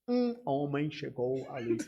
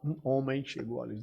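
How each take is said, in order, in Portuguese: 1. A palavra 'um' é dita muito forte. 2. A palavra 'um' é dita muito fraca. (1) "Ou eles dizem muito forte" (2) "Ou então extremamente fraco"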